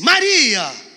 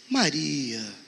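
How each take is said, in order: First: It sounds annoyed and exasperated. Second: It sounds sad and disappointed.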